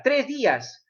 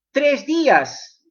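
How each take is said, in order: First: Said in the usual way. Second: Tres días drawn out slowly, each word weighted; slow emphatic. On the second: Shown as a demonstration. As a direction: stretch out Tres días to make it land.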